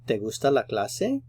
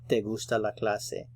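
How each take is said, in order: First: The voice rises a little at the end. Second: The voice stays level or falls at the end. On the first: It asks whether you like the class. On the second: It states that you like the class.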